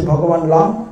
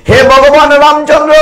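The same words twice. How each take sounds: First: Said in the usual way. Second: Loud devotional call; high loud call. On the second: Acted. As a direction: shout the Lord's name high and loud. Same address shouted.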